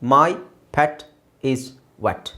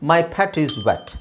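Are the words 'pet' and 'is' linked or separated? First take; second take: separated; linked. First: Each word is said separately with small gaps. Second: 'Pet' runs into 'is' with no gap. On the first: "ಒಂದೊಂದೇ ಓದಬೇಕು" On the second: "ಕೂಡಿಸಿ ನಾವು ಮೈ ಪ್ಯಾಟಿಸ್"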